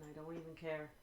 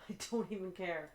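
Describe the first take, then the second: First: Said in the usual way. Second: Resigned laugh at the broken game. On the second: Real, not acted. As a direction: laugh it off in defeat. Repeats it, laughing.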